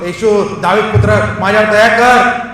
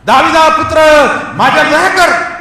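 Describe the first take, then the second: First: Raised-voice plea, building in loudness; moderately loud beggar's call; crying out. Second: High, full-voiced shout for mercy; desperate loud plea, pitched high; louder crying out. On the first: Acted. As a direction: call out for mercy over a crowd. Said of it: "तो जोराने ओरडून म्हटलं". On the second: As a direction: shout even harder to be heard. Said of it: "तो अधिक जोरात ओरडायला लागला".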